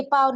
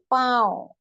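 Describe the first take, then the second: First: पाँव said as plain "paao", no nasal; non-nasal vowel. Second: पाँव with the vowel sent into the nose; nasalised vowel. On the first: Urdu teacher rejecting a reading for learners, oral vowel. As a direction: keep पाँव out of the nose. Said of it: "तो ये पाँव नहीं". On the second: Urdu teacher correcting for learners, nasalised vowel. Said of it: "देखिए फर्क समझे". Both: Shown as a demonstration.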